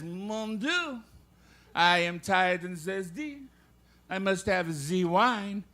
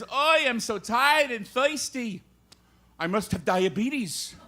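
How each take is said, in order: First: Put-on slow, stagey French accent. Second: Put-on kvetch it slowly in an old-time Yiddish accent. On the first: Comedian telling a joke as the Frenchman, French accent. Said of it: "The Frenchman says".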